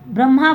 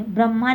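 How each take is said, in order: First: ब्रह्मा said with the h sounded after the m, brəmha; teacher models ब्रह्मा with the h voiced after m; correct pronunciation. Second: ब्रह्मा said without the h, as brəma; wrong pronunciation. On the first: Teacher to class, modelling the right way: ब्रह्मा with h after m. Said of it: "बोलेंगे". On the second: Teacher to class, showing the wrong way: ब्रह्मा with no h. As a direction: show ब्रह्मा dropping the h sound. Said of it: "नहीं". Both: Shown as a demonstration.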